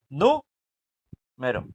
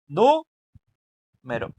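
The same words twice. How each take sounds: No difference in how they are said.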